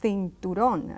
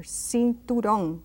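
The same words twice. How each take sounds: First: Cinturón opening on a TH sound; Castilian TH. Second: Cinturón opening on an S sound. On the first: Teacher repeating Castilian cinturón with TH. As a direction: say cinturón the Spain way, TH for C. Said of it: "they would say cinturón". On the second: Teacher giving the alternative cinturón, with S. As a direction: say cinturón with S, not TH. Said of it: "C is an S sound". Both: Shown as a demonstration.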